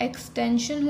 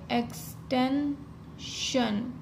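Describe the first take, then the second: First: Said in the usual way. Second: extension drawn out very slowly while writing; slow dictation. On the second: Shown as a demonstration. Teacher writing the outline on the board, slowly. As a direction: spell out extension slowly, syllable by syllable. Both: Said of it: "तो हम कैसे लिखेंगे?".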